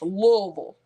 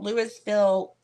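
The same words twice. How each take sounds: First: The name is said the way locals say it. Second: The name is said the way outsiders say it. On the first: The speaker calls it right. "It's Louisville" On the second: The speaker calls it wrong. "Y'all might call it Louisville"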